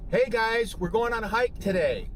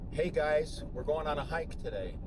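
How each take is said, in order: First: It is said with exaggerated, high energy. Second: It is said with too little energy.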